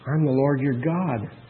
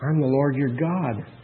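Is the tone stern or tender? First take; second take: tender; tender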